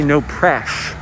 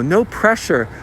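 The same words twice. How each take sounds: First: "press" cut short to "presh"; shortened to presh. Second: Said in the usual way. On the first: Shown as a demonstration. Showing wife how people shorten it, "press" as "presh". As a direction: end "press" on a sh sound. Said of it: "pressure becomes presh". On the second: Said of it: "people say".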